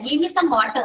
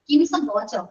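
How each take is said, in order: First: Water is said in a Kerala-style pronunciation. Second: Water is said in a native English-style pronunciation. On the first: The speaker calls it wrong. "അത് നമ്മൾ പണ്ടിങ്ങനെ പറഞ്ഞേ വാട്ടർ എന്ന് പറയും" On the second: The speaker calls it right. "പക്ഷെ ശരിക്കും ഇങ്ങനെയാണ്"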